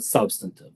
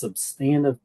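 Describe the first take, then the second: First: It sounds like the start of 'substance'. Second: It sounds like the start of 'substantiate'. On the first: The speaker calls it wrong. "not substantive" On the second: The speaker calls it right. "it's substantive testing"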